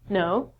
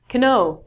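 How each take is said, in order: First: The word begins with an N sound. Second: The word begins with a K sound. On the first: The speaker calls it right. "we just say no" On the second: The speaker calls it wrong. "we don't say canoe"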